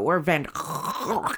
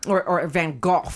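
First: The name is said in a non-British pronunciation. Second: The name is said in a British pronunciation. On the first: "as people say" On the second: "as British people say"

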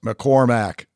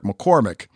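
First: The last syllable has a full 'a' vowel. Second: The last syllable has a weak, i-like vowel. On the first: The speaker calls it right. "It's pronounced McCormack" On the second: The speaker calls it wrong. "You guys continuously refer to him as Eric McCormack when his last name has an A, not an I in it"

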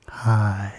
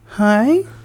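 First: The greeting sounds flat and unenthusiastic. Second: The greeting sounds lively and enthusiastic.

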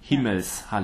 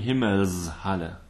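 First: The middle S is unvoiced, like a hiss. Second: The middle S is voiced, like a buzz. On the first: The speaker calls it right. "this has to be an unvoiced Himmelshalle" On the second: The speaker calls it wrong. "Never sing Himmelshalle. That sounds pretty weird"

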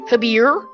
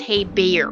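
First: The first syllable sounds like 'ha'. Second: The first syllable sounds like 'hey'. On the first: The speaker calls it wrong. "I was like, oh, it's like Habir" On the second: The speaker calls it right. "no, it's Hey Bear"

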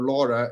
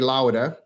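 First: The name is said with an English pronunciation. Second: The name is said with a non-English pronunciation. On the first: "as you say in English" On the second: "I normally say Laura"

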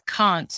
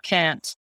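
First: Can't is said with a British vowel. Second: Can't is said with an American vowel. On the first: The singer keeps a natural British accent. "there are certain British people who definitely don't put on an accent when they sing. Like [name] says can't" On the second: The singer would be putting on an accent. "not can't"

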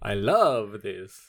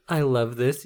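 First: It is said in a Dracula voice. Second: It is said in a normal voice.

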